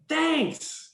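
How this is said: It is said warmly and enthusiastically.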